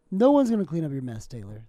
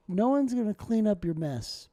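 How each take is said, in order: First: Louder repeat of no one's gonna clean up your mess, Taylor; scolding himself. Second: Said in the usual way. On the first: Real, not acted. Talking to himself about the ice cube, louder scolding.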